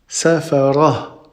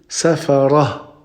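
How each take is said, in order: The two takes are said the same way.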